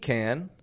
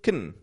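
First: The word has a full, clear vowel. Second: The word is quick with the vowel dropped. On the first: "we're going to pronounce the full word can" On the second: "Super quick, dropping the A out, just a quick can"

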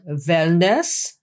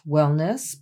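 First: It is said with a German accent. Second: It is said with an American accent.

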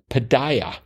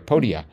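First: It sounds like the start of podiatrist. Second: It does not sound like podiatrist. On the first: The speaker calls it wrong. "The reason I said it the way that I said it was I was thinking of podiatrists" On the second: The speaker calls it right. "properly pronounced as the podia"

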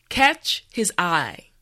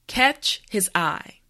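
No difference in how they are said.

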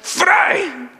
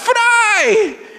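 First: It is said in an angry tone. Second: It is said in an excited tone.

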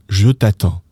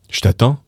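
First: The word je is a full separate syllable. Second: The word je merges into a quick sh sound.

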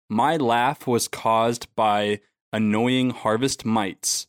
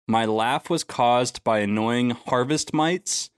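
First: It is said slowly. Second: It is said at a normal speed.

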